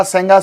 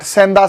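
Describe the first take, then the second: First: सेंगा with a "ga" ending; the name as सेंगा, hard g; actual name form. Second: सेंधा with a "dha" ending; the variant some people use, सेंधा with dh; variant pronunciation. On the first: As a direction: say सेंगा, with g in place of dh. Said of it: "सेंगा नाम है". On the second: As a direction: say सेंधा, with dh in place of g. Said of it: "कुछ लोग सेंधा कहते हैं". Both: Shown as a demonstration.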